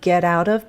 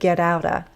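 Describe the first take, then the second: First: The word 'of' is pronounced fully. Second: The word 'of' is reduced to 'a'. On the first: "it often sounds not get out of" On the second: "but get outa"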